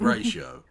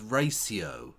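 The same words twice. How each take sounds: First: The word is pronounced in a plain way. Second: The word is pronounced in a posh way. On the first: This is how people normally say it. "instead of ratio" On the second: This is how the posh man says it. "He's so posh. He says ratio"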